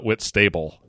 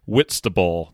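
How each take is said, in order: First: The second part sounds like the word 'stable'. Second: The second part is short and reduced. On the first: The speaker calls it wrong. "not Whitstable, even though it's spelled that way" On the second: The speaker calls it right. "It's pronounced Whitstable"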